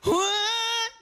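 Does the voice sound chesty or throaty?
chesty. The voice is resonant, with chest resonance. The speaker calls it right. "lagyan mo ng konting chest, ng dibdib. Sasabayan mo siya"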